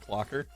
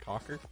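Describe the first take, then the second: First: The word is said with its L sound. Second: The word is said without its L sound. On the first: The speaker calls it right. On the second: The speaker calls it wrong.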